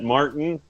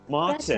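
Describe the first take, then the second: First: The middle T is dropped, American style. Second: The middle T is clearly sounded, British style. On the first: "we either skip the T or we turn it to D, but we do not say T" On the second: "just start saying it, and you'll hear the British accent come out"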